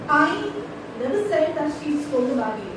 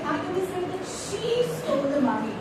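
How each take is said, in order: First: The stress falls on the word I. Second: The stress falls on the word she. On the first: Someone else said it. "So it's not I, it is somebody else" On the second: Someone else stole it. "It's not she, it is somebody else"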